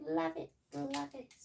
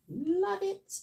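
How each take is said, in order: First: Softer echo. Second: Much higher, bright "Love it"; excited. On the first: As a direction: let it fall away under your breath. Trailing repeat. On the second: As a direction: gush it up high. Raving over feathered hair. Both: Real, not acted.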